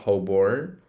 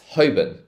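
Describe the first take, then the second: First: The second syllable sounds like 'born' with an R. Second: The second syllable is a quick, short 'bun'. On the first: The speaker calls it wrong. "the Americans will pronounce this born, like R" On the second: The speaker calls it right. "like a quick bun"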